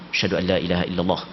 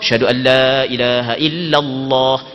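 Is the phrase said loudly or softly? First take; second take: softly; loudly. First: It is said quietly, in a low voice. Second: It is said loudly, in a ringing voice. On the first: "Kita mengucap dua kalimah syahadah secara perlahan" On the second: "baru kita mengucap dua kalimah syahadah secara nyaring"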